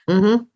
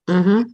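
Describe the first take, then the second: No difference in how they are said.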